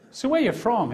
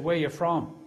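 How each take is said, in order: First: Higher, louder repeated question; louder, firmer second ask; pressing repeat. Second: Said in the usual way. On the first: Retold or imitated. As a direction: press him for a straight answer. Officer repeats question, pressing harder.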